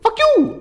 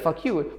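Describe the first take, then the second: First: It is said in a silly, exaggerated tone. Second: It is said in a plain, ordinary tone. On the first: "That's more funny, more silly, it's more weird" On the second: "instead of"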